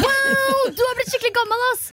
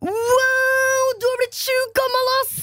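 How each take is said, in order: First: Put-on she re-does how the boy said it, high teen voice; mocking teen boy. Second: Put-on high, stretched-out teen boy voice; boy in the lift comments on her age, mock teen voice. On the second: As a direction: imitate the cheeky boy in the lift. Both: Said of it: "måten han sa det på".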